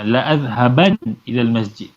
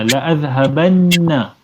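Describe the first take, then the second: First: "azhaban" ending on a plain n, no vowel; single silent nun. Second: "azhabanna" with a long held double n, then -na; doubled final nun. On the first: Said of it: "kalau kita nak taukid biasa-biasa je". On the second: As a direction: hold the nn in "azhabanna". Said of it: "yang sabdu ni lebih kuat". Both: Shown as a demonstration.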